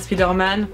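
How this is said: The name is said with a French pronunciation.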